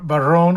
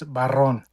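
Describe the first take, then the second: First: The R is not rolled. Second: The R is rolled. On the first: The speaker calls it wrong. "everybody says bar- Barron or Baron" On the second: The speaker calls it right. "It's Barron"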